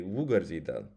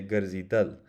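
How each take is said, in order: First: Wugarzidal with the stress on the first syllable, wu; stress at the front. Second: Garzidal with the stress on the last syllable, dal; stress at the end. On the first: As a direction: hit the start of wugarzidal. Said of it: "Notice how ... the accent". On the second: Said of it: "the accent's at the end". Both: Shown as a demonstration.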